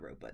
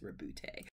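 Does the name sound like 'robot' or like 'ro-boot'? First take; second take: robot; ro-boot. First: The name sounds like the word robot. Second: The name ends with a boot sound. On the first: The speaker calls it wrong. "I kept saying robot. It's not robot" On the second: The speaker calls it right. "It's it's Rebute"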